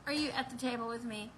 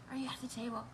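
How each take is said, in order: First: Said in the usual way. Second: Softly whispered question, almost no voice. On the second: Shown as a demonstration. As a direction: lean in and whisper it to the viewers. Repeats the question to the audience.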